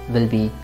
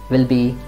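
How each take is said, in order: No difference in how they are said.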